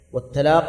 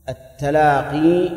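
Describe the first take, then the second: First: "والتلاق" ending on a closed qaf, no ee; final ya dropped. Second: "التلاقي" with a long, drawn-out final ee; final ya pronounced. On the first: Teacher showing students the reading without ya, final ya dropped. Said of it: "بحذف الياء". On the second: Teacher showing students the reading with ya, final ya pronounced. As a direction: say "التلاقي" slowly, holding the ya at the end. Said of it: "بالياء". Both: Shown as a demonstration.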